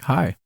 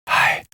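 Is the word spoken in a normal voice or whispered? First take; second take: normal; whispered. First: It is spoken in a normal conversational voice. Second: It is spoken in a whisper. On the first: "when you talk at a conversation level like this" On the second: "When you whisper like this"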